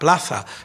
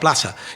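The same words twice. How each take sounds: First: The z has the Castilian pronunciation. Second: The z has the Cordoban pronunciation. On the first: "no decía pla- plaza" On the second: "sino decía plaza"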